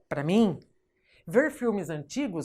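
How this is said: There is a pause after 'mim'. The speaker calls it right. "você vai falar"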